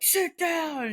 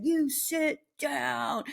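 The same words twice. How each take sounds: First: Higher, firm dog command; lightly voiced stern pack-leader command. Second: Higher, slow, drawn-out firm order; measured, commanding pack-leader voice. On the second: Retold or imitated. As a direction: spell it out slowly so the dog obeys. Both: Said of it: "pack leader".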